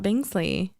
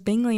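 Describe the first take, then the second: First: The name is said with an s sound. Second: The name is said without an s sound. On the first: The speaker calls it wrong. "not Bingsley" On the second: The speaker calls it right. "I kept on having to remind myself that it was Bingley"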